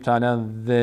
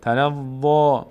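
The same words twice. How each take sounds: First: "تلظ" with a thin, light final vowel; wrongly thin vowel. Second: "تلظا" with a long, heavy, rounded final aa; full heavy vowel. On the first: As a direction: end "تلظ" on a light e-like sound, unrounded. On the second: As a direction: slowly fill out the "ظا" in "تلظا". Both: Shown as a demonstration.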